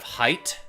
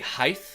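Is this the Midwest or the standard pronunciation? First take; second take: standard; Midwest. First: It is said with a standard pronunciation. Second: It is said with a Midwest pronunciation. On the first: The speaker calls it right. "instead of height" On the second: The speaker calls it wrong. "people will say height"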